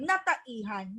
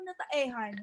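First: The vowel before the suffix sounds like 'i'. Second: The vowel before the suffix sounds like 'e'. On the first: The speaker calls it right. "Papalitan po yung letrang E, gagawing I" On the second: The speaker calls it wrong. "Ano nataehan? Walang ganun"

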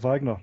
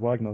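First: The name is said with a German pronunciation. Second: The name is said with an English pronunciation. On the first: "I pronounce it with a German sort of Wagner" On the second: "rather than Wagner"

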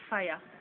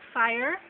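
First: It is said in a Jamaican accent. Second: It is said in a non-Jamaican accent.

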